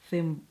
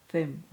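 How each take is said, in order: Both takes have the same delivery.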